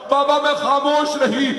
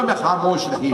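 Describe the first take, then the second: First: Pitched far higher, a grieving cry; wailed refrain. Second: Said in the usual way. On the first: Acted. Fatima telling her father she stayed silent, wailing. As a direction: let the refrain break into a keening wail.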